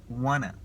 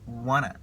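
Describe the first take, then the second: Both takes have the same delivery.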